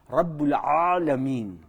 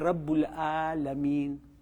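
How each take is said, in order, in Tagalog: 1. Ang Alamin ay nagsisimula sa masikip at malalim na katinig. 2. Ang Alamin ay nagsisimula sa payak na tunog ng patinig. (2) "Hindi Rabbul Alamin. Hada khata"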